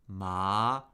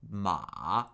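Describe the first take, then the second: First: The pitch rises from middle to high. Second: The pitch dips low, then comes up.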